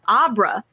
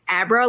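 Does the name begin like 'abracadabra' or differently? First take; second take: differently; abracadabra. First: It begins with a different vowel sound. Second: It begins with the vowel of 'abracadabra'. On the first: "she said Abra" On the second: "as in Abracadabra"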